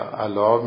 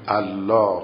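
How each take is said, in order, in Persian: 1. صدای «ل» کوتاه و ساده است. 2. صدای «ل» کشیده و مشدد است. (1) "مثلا الله میگه" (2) "نه الله و تشدیدشو باید بگه"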